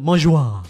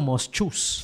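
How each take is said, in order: First: It is said like 'mozh-wa', ending in 'wa'. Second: It is read as spelled, ending in 's'. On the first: The speaker calls it right. "ang pronunciation pala doon" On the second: The speaker calls it wrong. "So sabi ko"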